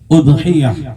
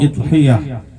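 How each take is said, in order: First: The word begins with an u vowel. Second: The word begins with an i vowel. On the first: The speaker calls it right. "hamzahnya dibaca dengan dhammah" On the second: The speaker calls it wrong. "atau idhiyah"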